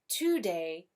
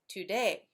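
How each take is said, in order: First: The stress is on the first syllable. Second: The stress is on the second syllable. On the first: The speaker calls it wrong. "You don't say today" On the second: The speaker calls it right. "you say today"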